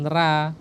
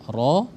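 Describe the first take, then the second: First: The r syllable is thin, with a light vowel. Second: The r syllable is thick, with a dark vowel. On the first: The speaker calls it wrong. "jangan ra ya" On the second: The speaker calls it right. "ro itu dia tafkhim tebal"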